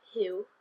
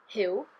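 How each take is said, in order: First: "Hugh" with the Welsh I-to-oo glide; "Hugh" said Welsh-style, short I then oo. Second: "Hugh" said with the Welsh uw, a short I gliding to oo; "Hugh" not English hew but Welsh ih-oo. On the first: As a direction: say "Hugh" as in Welsh, not English. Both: Shown as a demonstration. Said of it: "not quite Hugh like it is in English".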